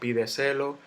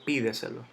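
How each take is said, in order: First: The stress is not on the first syllable. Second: The stress is on the first syllable. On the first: The speaker calls it wrong. "Yo no digo pídeselo" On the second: The speaker calls it right. "Yo digo pídeselo. Entonces llevo la tilde en la i"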